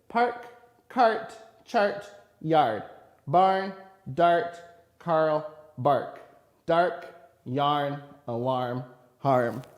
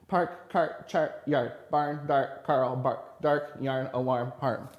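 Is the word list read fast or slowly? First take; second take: slowly; fast. First: The list is read at a slow pace. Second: The list is read at a fast pace.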